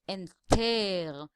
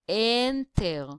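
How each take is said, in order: First: The last syllable is stressed and lengthened. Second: The first syllable is stressed and lengthened. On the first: The speaker calls it wrong. "we cannot say enter" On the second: The speaker calls it right. "but we can say enter, which means the first syllable, the N, is the stressed one"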